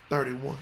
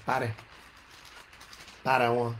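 First: Said in the usual way. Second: Low country voice, "thirty" loosened to "tahty"; country accent. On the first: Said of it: "country voice". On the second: Shown as a demonstration. Preacher showing how he says thirty in his country voice, country accent. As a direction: say "thirty-one" like country folk, "tahty-wun". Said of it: "I can say in my country voice".

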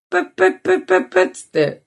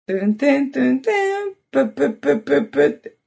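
First: High quick mouth beeps; phone dial tone imitation. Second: High quick beeping mouth noise; phone connecting sound. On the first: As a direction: beep like a phone connecting. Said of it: "斉藤さんやり始めたの". (電話の呼び出し音のまね) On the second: Retold or imitated. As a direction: imitate the call connecting, fast. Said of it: "これ繋がる時の音なんだけど". (電話がつながる音のまね)

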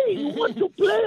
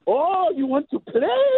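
First: Sing-song taunt pitched much higher; teasing mom, higher. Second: Teasing mom. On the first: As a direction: push the teasing up into a squeal. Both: Retold or imitated. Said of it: "my mom is hopping up and down going".

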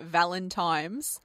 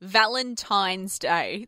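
First: Valentine's ending in "times" with an M; imitated mispronunciation. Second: Said in the usual way. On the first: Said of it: "I heard calling it Valentine's". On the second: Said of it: "the amount of people".

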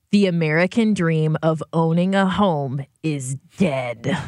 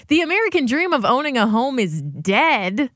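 First: Slow, low read of a doom-laden headline; grim headline read. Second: Higher-pitched, protesting echo of the headline; incredulous headline repeat. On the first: Reading co-hosts a bleak headline from Twitter, gravely. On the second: Objecting to how the headline puts it, incredulous. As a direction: quote it back in disbelief, rising at the end. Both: Retold or imitated. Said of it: "why you gotta say it like that".

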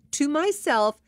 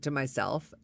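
First: "to myself" pitched high with strong stress; emphatic repeat. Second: Said in the usual way. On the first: Real, not acted. Clarifying it was only thought, "to myself" stressed high. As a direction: punch up "to myself" in a higher voice.

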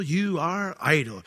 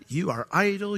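First: Slow scornful repeat. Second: Higher, scornful "You are idle"; mock Pharaoh. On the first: Acted. Pharaoh repeating his insult, slow and scornful. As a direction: lean on "you are idle" slowly. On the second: Pharaoh sneering at the officers, higher scornful voice.

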